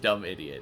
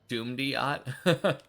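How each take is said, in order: First: The name is said as two words, 'dumb idiot'. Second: The name is said as one word, 'doom-diot'. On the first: "I just thought it was pronounced dumb idiot" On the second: "I guess Doomdiot would be also a a way to pronounce that"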